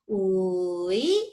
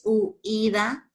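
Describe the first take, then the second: First: "Uida" with a very long u, rising into i, then da; lengthened first vowel. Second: "huida" broken as u-ida; mistaken syllable split. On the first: Shown as a demonstration. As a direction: stretch it out as uuuui... da. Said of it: "La voy a hacer más larga". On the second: Retold or imitated. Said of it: "pero no es huida".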